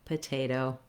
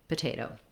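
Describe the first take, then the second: First: The word is said at medium speed. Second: The word is said quickly.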